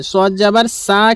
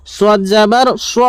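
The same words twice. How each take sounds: First: "সা" with thin s and open a; wrong thin sad. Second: "স" as rounded, heavy swa; correct heavy sad. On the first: Teacher warning learners, "সা" mistakenly thin like sin. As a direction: say "সা" as light saa, unrounded. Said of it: "কেউ বলবেন না". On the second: Teacher correcting the error, "স" heavy as swa. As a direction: round "স" toward an aw vowel. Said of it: "সদ যাবার স উচ্চারণ হয়". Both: Shown as a demonstration.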